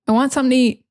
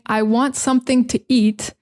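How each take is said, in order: First: The words run together and are linked. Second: Each word is said separately and clearly. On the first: "we say" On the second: "Instead of saying"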